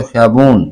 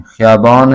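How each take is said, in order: First: ख़ियाबून with oo replacing aa; change the ending of ख़ियाबून to -oon; colloquial oon ending. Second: ख़ियाबान with long aa before n; original aan ending. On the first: Teacher showing the vowel change, colloquial pronunciation. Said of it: "change हो जाती है अलिफ वाव नून में". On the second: Teacher giving the example word, original pronunciation. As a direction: keep the open aa in ख़ियाबान. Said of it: "अलिफ नून जो है ना". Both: Shown as a demonstration.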